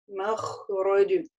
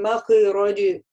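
First: The kh sound is held for a moment. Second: The kh sound is cut off quickly. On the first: The speaker calls it right. "ха у нас чуть-чуть протягивается" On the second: The speaker calls it wrong. "не говорим махроди"

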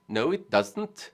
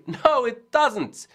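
First: It is said in a Swedish accent. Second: It is said in a plain, everyday accent.

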